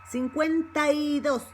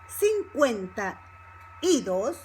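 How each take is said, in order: First: It is said quickly, run together as one word. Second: It is said slowly, each word kept separate. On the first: "Same thing when it comes to speaking fast" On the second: "but if you speak slow, which you have to do first"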